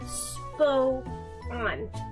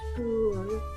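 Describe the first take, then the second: First: The word is split into two syllables. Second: The word is said as one syllable. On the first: "But I like spo on" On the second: "the proper pronunciation is spoon"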